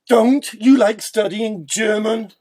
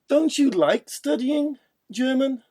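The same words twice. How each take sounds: First: It sounds disapproving. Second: It sounds like checking a fact. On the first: The speaker disapproves of the listener's attitude. "Now showing our disapproval" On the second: The speaker wants to confirm information. "let's confirm information"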